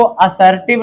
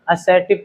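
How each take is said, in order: First: असर्टिव said the wrong way as "asartiv", with an open first vowel and a full r; wrong pronunciation. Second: असर्टिव said the right way as "uh-setiv", with a short first vowel and the r dropped; correct pronunciation. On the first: Teacher showing students the wrong way to say असर्टिव, said "asartiv". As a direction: mispronounce असर्टिव with a full "a" and a rolled r. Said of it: "इसको असर्टिव नहीं पढ़ते हैं". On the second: Teacher giving students the right way to say असर्टिव, said "uh-setiv". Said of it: "नहीं आप लोग सोचो असर्टिव है, असर्टिव पढ़ते हैं".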